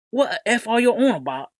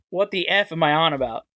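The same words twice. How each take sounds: First: Rough Cockney voice, pitched up; Cockney accent. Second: Said in the usual way. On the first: Retold or imitated. Imitating a TikTok commenter in a Cockney accent. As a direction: do a British Cockney bloke asking what's going on. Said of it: "like, a Cockney or British accent". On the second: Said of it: "it sounded like they said it in".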